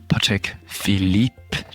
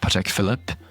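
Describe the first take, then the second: First: The name is said with French-style pronunciation. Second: The name is said with English-style pronunciation. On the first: The speaker calls it right. "it is good to at least try to pronounce them correctly" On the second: The speaker calls it wrong.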